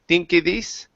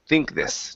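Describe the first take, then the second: First: An extra vowel follows the K sound. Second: The K runs straight into the TH. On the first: The speaker calls it wrong. "you said thinke, thinke this" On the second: The speaker calls it right. "so this is think this"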